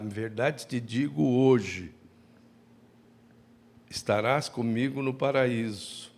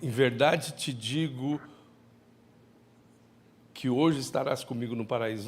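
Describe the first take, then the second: First: There is a pause right after the word hoje. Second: There is no pause after the word hoje. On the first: Today is when it is said, not when paradise comes. The speaker calls it right. "é uma vírgula que tem que existir lá" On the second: The promise is for paradise that same day. The speaker calls it wrong. "Não é assim"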